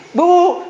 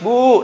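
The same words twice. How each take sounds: First: Put-on high, drawn-out child's wail; mock crying harder. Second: Mock whining call to mother; imitated child crying. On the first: Preacher playing a refused child stepping up tears, loud mock wail. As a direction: wail louder for mother, hammed up. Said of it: "nangis lebih keras". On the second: Preacher playing a child wanting snack money, mock crying. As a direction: wail it like a child begging. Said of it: "Pakai nangis".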